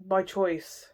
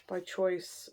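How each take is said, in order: First: Said in the usual way. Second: "By choice" dropped much softer; soft echo. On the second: Real, not acted. Reader echoing her point, much softer. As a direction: let "By choice" fall away quietly.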